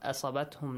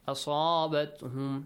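First: The vowel after the s is short. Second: The vowel after the s is prolonged. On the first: The speaker calls it wrong. "Not asabatum, no" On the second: The speaker calls it right. "Make sure you prolong it"

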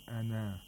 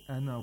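First: The final vowel is held long. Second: The final vowel is kept short. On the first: The reciter pauses after this word. "If you stop on ana, it will become ana" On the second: The reciter continues without pausing. "But if you don't stop"

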